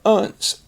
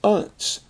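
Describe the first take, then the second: First: The ending has a weak, reduced vowel. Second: The same.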